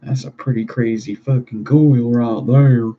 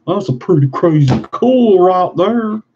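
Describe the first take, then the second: First: Said in the usual way. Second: High, loud silly exclamation; loud mock-excited voice; hammed-up excitement. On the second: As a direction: repeat it higher and louder, playing it up. Remark repeated in put-on voice.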